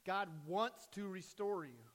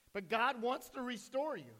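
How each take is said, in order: First: Said in the usual way. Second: "God" lifted higher and louder, then falling; stress on God. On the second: Shown as a demonstration. Pastor repeating to the congregation, punching "God". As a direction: lean hard on "God" in "God wants to restore you".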